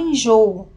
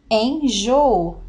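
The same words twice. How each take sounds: First: Said in the usual way. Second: Enjoo split slowly into en-jo-o; syllables split. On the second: Shown as a demonstration. Teacher separating enjoo for the class, slowly syllabified. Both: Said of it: "Ao separarmos, teremos enjoo".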